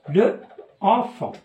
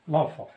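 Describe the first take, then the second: First: The article's vowel is kept before the noun. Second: The article's vowel is dropped before the noun. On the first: The speaker calls it wrong. "في الأصل كتكتب هكا" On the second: The speaker calls it right. "je supprime la voyelle E et je mets apostrophe et je lis l'enfant"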